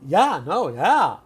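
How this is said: It is said in a positive, upbeat tone. It means yes. "if you say in a positive way"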